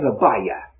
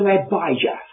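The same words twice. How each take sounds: First: The J is not sounded as a J. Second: The J is sounded as a J. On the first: "They don't sound the J" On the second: "as I have"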